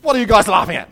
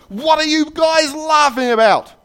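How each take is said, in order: First: Loud, higher demand, acted; indignant shout. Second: Very high, loud, drawn-out yell, acted; explode, stretching out every word; steamed cop. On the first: Cop to two giggling boys in the circle, indignant shout. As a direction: burst out at them as the annoyed cop. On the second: Cop storms up to the laughing boys, steamed yell. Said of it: "he gets really steamed".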